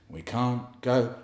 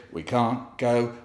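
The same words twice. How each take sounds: The two takes are said the same way.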